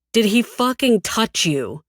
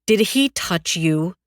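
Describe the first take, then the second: First: Higher, forceful repeated demand; angry demand. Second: Slow, weighted demand. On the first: Cyrus asking a second time as he grips her jaw, angrily demanding. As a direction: press harder, punching out the question. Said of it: "he asks again, painfully gripping my jaw". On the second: Cyrus questioning her while jerking her chin up, demanding. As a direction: press the question slowly, word by word. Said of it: "Cyrus demands". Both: A narrator's reading.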